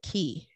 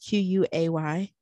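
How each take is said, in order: First: The word begins with a plain k sound. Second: The word begins with a kw sound. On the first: The speaker calls it right. "you pronounce it Key" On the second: The speaker calls it wrong. "I always call it Quay"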